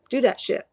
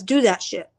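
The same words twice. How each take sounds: First: A laugh breaking into the repeat. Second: Said in the usual way. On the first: Retold or imitated. Repeating the spirit's crude advice, laughing. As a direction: laugh through it as you repeat it. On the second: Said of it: "He says".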